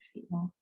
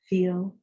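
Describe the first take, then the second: First: It is said very softly and quietly. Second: It is said aloud at normal volume. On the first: "You can also say it really softly to yourself" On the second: "You can say them out loud in the way I would just say it"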